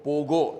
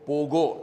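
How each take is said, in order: First: The middle consonant is a hard G sound. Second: The same.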